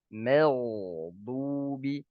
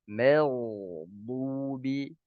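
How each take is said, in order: The two takes are said the same way.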